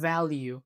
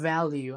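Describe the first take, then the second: Both takes have the same delivery.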